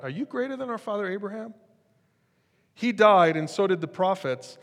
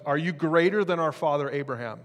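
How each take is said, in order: First: High, sneering challenge; mocking crowd. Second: Said in the usual way. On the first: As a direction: mimic the scoffing crowd, pitched up. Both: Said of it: "That's what they're at".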